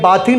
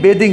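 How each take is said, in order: First: The first vowel is an open 'ah' sound. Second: The first vowel is an 'ay' sound. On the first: The speaker calls it wrong. "ये बाथिंग नहीं" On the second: The speaker calls it right. "बेदिंग है"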